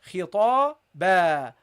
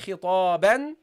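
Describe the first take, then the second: First: The word ends with a long a vowel. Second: The word ends with an n sound. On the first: The speaker calls it right. "we ignore it, and we pronounce the alif. So we say khitaba" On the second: The speaker calls it wrong. "we don't say khitaban"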